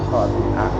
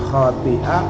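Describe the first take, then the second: No difference in how they are said.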